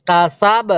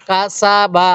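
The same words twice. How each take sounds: First: কাসাব closed on a bouncing b, no final vowel; কাসাব ending in a stopped consonant; stopping at waqf. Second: কা সা বা with the final বা voiced as an open syllable; open-ended কা সা বা; unpaused reading. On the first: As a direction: drop the last vowel and stop on the ব of কাসাব. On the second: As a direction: say all three syllables, ending on the vowel in বা. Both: Shown as a demonstration. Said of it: "ওয়াকফ করলে".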